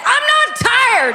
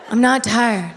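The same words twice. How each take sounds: First: High, slow, loud protest; defensive shout. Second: Said in the usual way. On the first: Retold or imitated. Husband shouting back at wife, high slow protest. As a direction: insist loudly you're awake. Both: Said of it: "Why don't you just go to bed?".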